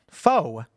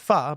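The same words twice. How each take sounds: First: "pho" said like "foe"; wrong pronunciation. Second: "pho" said like "fuh"; correct pronunciation. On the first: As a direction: say "pho" to rhyme with "go". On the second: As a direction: say "pho" with an open "uh" vowel. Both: Shown as a demonstration. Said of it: "It's actually pronounced pho".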